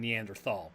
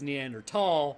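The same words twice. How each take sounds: First: The 'thal' starts with a TH sound. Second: The 'thal' starts with a plain T sound. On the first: "nobody's going to fault you for saying" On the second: "as a T sound, not a th sound. So it actually is"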